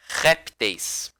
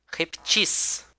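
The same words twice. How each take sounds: First: "répteis" stressed on RÉP, weak -teis; first-syllable stress. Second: "reptis" stressed on the last syllable, -TIS; final-syllable stress. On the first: Teacher shows class the plural of réptil, RÉPteis. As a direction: say RÉPteis, falling away after RÉP. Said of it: "se for na sílaba átona". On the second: Teacher shows class the plural of reptil, repTIS. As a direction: say repTIS, weight on the end. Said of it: "se ele for na sílaba tônica". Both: Shown as a demonstration.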